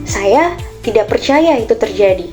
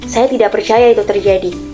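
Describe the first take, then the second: First: The sentence is said in a surprised tone. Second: The sentence is said in an angry tone. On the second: "dengan nada yang marah"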